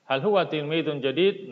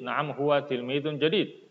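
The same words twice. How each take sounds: First: "Hal huwa tilmidun jadid?" with a clear rise at the end; question tune. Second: Said in the usual way. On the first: Shown as a demonstration. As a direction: ask it, lifting "huwa" and the end. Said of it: "bedakan intonasi antara kalimat tanya". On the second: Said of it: "dengan kalimat berita".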